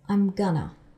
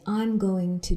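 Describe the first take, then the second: First: Going to is blended into a reduced gonna. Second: Every syllable of going to is said in full. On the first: "He says" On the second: "Barney doesn't say"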